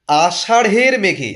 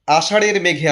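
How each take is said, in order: First: আষাঢ়ের slowed and louder, breath of H after the flap: "ashaṛh-er"; aspirated ঢ়. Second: Said in the usual way. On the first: Shown as a demonstration. Teacher shows the pronunciation, আষাঢ়ের slow with an aspirated ṛh. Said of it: "উচ্চারণটা দেখুন". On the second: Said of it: "আষাঢ়ের বলছি না".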